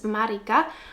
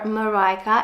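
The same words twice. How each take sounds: First: The name is said in its non-English pronunciation. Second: The name is said in an English pronunciation.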